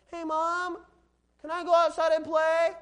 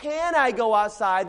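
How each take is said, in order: First: High-pitched imitation of a pleading kid; child asking mom. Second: "Can I go outside" slow, CAN weighted, in own voice; stress on CAN. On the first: Kid asks mom to go outside, high child voice. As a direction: put on a high little-kid voice. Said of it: "heard a mom get sarcastic with their kids". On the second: Shown as a demonstration. Preacher quotes the words to explain ability, stress on CAN. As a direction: lean on the word CAN, unhurried. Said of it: "When you say the words".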